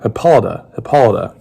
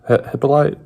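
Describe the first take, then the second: First: "Hippolyta" with stress on POL and a final "duh"; corrected pronunciation. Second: Hesitant try at "Hippolyte", restarting after "Hi-"; unsure mispronunciation. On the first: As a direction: repeat "Hippolyta" carefully as hip-POL-uh-duh. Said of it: "I'm terrible at pronouncing". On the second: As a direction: stumble into "Hippolyte", ending in "light" without the final "a". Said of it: "I'm probably gonna mispronounce this". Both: Real, not acted.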